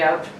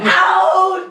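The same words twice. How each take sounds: First: It is said flatly, without drama. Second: It is said loudly and dramatically.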